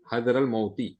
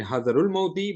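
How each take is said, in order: First: حَذَرَ الْمَوْتِ with an "a" ending on the first word; nasab case ending. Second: حَذَرُ الْمَوْتِ with an "u" ending on the first word; expected "u" ending. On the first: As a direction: say حَذَرَ as "hadhara", running into الْمَوْتِ. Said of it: "but because it is answering this question, it has come in nasab state". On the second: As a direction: say حَذَرُ as "hadharu", running into الْمَوْتِ. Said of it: "So it should have been". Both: Shown as a demonstration.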